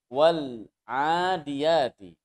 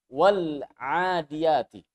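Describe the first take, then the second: The two takes are said the same way.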